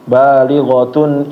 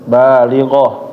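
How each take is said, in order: First: The word ends with a t sound, then continues. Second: The word ends with an h sound and stops. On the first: The reading continues without stopping. "kalau mau nyambung dibaca semua ya. Balighatun atau taknya tamarbutuh ini dibaca tak" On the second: The reader stops at this word. "kalau misalnya berhenti dia berubah menjadi huruf H"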